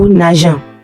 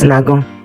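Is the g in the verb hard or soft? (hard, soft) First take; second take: soft; hard. First: The g is soft, sounding like j. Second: The g is hard, sounding like g. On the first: The speaker calls it right. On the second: The speaker calls it wrong.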